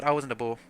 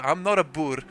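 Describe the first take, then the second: First: "Boer" said the English way; English pronunciation. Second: "Boer" said the Afrikaans way; Afrikaans pronunciation. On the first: South African streamer slipping into English, anglicised "Boer". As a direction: say "Boer" with an English vowel, no rolled R. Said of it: "saying it in the English way". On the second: South African streamer correcting himself, Afrikaans "Boer". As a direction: say "Boer" as in Afrikaans, "boor" with rolled R. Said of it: "Just say it in the Afrikaans way". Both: Shown as a demonstration.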